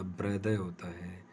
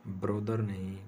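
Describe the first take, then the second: First: ब्रदर as bradhuh, r dropped; no r at the end of ब्रदर; non-rhotic pronunciation. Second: ब्रदर with the final r sounded; wrong pronunciation. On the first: Teacher giving the correct form, r silent. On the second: Teacher showing the common mistake, r pronounced. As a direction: say ब्रदर ending on a clear r. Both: Shown as a demonstration. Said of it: "आर को pronounce नहीं किया जाता".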